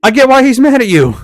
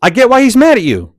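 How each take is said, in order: First: "get" punched, loud and high; stress on get. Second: Emphatic. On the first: Repeating to the camera driver, stressing "get". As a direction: hit the word "get". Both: Acted.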